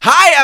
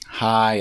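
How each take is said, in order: First: The greeting sounds very upbeat, like a cheerleader. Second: The greeting sounds flat and low-energy.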